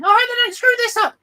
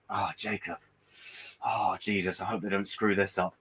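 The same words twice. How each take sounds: First: Much higher, louder, quicker squeaky worry; tiny high voice. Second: Low, soft fretting murmur; the nagging worry at the back of your mind; worried inner voice. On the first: His little inner voice fretting over Marvel, high and squeaky. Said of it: "a little voice going". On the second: His inner doubt about Marvel, soft low fretting. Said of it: "a voice in the back of my head now that's going". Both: Retold or imitated.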